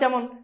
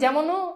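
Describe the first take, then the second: First: The word ends on the consonant n. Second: The word ends with a final o vowel. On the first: The speaker calls it right. "থেমে গেছো, ও স্বর কিন্তু এখানে উচ্চারিত হচ্ছে না" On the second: The speaker calls it wrong. "যদি ওকার দাও তাহলে কি হবে? যেমনও উচ্চারণ"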